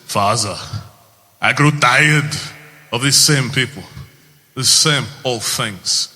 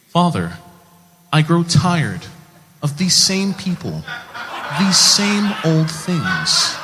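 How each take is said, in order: First: Put-on thick Austrian-accented movie line; strong accent, weighty delivery of a Hercules line; Arnold Schwarzenegger. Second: Higher, grandly enunciated American dub; slow, booming Old Testament proclamation; dubbed movie voice. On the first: Hercules speaking to his father, thick Austrian accent. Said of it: "what he sounds like first in the movie". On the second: Acted. Hercules dubbed over for American audiences, grand biblical voice. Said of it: "what he sounds like when he's dubbed".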